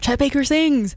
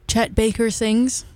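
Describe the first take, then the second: First: It is said excitedly, like an exclamation. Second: It is said plainly, without excitement.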